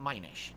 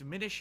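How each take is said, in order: First: The first syllable does not sound like 'min'. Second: The first syllable sounds like 'min' in diminished. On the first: The speaker calls it wrong. "not Minish" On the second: The speaker calls it right. "Minish as in diminished"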